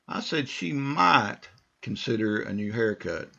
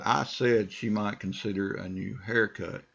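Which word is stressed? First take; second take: might; said. First: The stress is on "might". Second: The stress is on "said".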